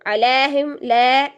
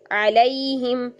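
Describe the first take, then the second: First: "अलैहिम, लै" with open ae, no glide; wrong flattened vowel. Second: "अलैहिम" slowly, as "a-la-ee-him"; slow, careful "अलैहिम" with a clear diphthong; correct glide into ya. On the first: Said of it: "गलत हो जाएगा". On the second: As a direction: bend the middle of "अलैहिम" from a into i. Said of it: "या की तरफ मुड़ेंगे". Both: Shown as a demonstration.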